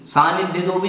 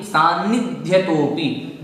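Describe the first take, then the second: First: सान्निध्यतोपि quickly, sliding over a single न; wrong single n. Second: सान्निध्यतोपि unhurried, with the न held double; correct double n. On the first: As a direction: rush सान्निध्यतोपि without doubling the n. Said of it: "नहीं". (सान्निध्यतोपि जल्दी में, एक ही नकार से) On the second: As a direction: dwell on both n sounds in सान्निध्यतोपि. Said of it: "double नकार है". (सान्निध्यतोपि में दो बार न स्पष्ट बोलें) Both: Shown as a demonstration.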